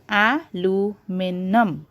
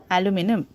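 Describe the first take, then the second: First: "aluminum" slowly as a, lu, mi, num; split into syllables. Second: Said in the usual way. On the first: Shown as a demonstration. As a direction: break "aluminum" into four beats.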